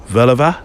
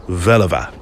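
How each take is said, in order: First: "Veluwe" with a rising, unsure tune; language-drill "Veluwe", lifted at the end; questioning lesson repetition. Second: "Veluwe" with a settled falling tune; language-drill "Veluwe", dropping at the end; confirming lesson repetition. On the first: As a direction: ask "Veluwe" as if checking the pronunciation. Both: Shown as a demonstration. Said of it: "I sound like those lessons".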